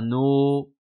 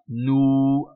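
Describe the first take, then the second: First: The vowel is a more open o sound. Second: The vowel is a rounded oo sound. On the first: The speaker calls it wrong. "et pas no" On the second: The speaker calls it right. "un vrai ou"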